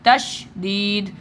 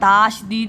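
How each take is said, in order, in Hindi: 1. पहला स्वर छोटा और हल्का है। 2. पहला स्वर लंबा और भरा हुआ है। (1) "तशदीद हल्का हल्का सा आवाज़ है" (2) "ताशदीद नहीं है"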